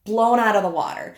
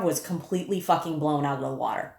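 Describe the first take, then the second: First: Blown punched louder and higher; emphatic repeat. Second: Said in the usual way. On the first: Real, not acted. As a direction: hit Blown hard, falling off.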